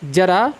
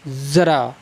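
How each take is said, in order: First: Said in the usual way. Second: ज़रा with a buzzing z sound, zara; ज़रा spoken with z, not j; nukta pronunciation. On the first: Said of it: "पहले मैं इसका उच्चारण करता हूँ". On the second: Shown as a demonstration. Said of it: "फिर मैं इसका उच्चारण करूँगा".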